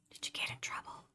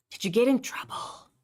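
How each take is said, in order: First: Breathy repeated whisper, no voice at all. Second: Said in the usual way. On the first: Shown as a demonstration. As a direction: repeat the question in a hushed whisper.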